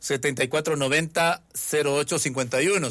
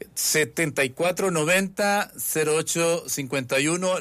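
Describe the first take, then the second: First: It is said at a normal pace. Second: It is said more slowly.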